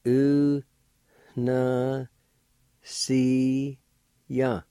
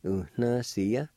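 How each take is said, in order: First: Very slow, long held syllables; teacher sounding a word out slowly. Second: Said in the usual way. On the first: Shown as a demonstration. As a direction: stretch each syllable out with long pauses between. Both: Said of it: "like this".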